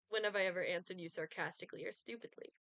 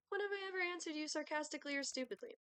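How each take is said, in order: First: Said in the usual way. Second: Pitched higher, playful and laughing, in character. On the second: Acted. Retake after wrong voice, higher character voice. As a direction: lift into the character's higher voice with a chuckle. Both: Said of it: "That's not my voice".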